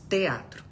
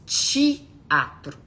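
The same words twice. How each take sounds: First: It is said with a neutral accent. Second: It is said with a Minas Gerais accent. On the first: "nós não falamos teatro" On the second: "Nós falamos teatro"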